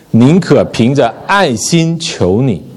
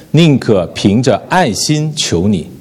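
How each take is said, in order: No difference in how they are said.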